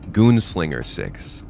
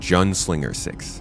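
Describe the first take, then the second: First: The first vowel is a long 'oo' sound. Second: The first vowel is a short 'uh' sound. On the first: The speaker calls it right. "the U has a oo sound" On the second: The speaker calls it wrong. "your name is pronounced Junslinger Six"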